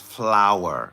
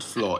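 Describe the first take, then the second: First: The word rhymes with 'hour'. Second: The word does not rhyme with 'hour'. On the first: The speaker calls it right. "it's flour. F L hour" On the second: The speaker calls it wrong. "It's not flour"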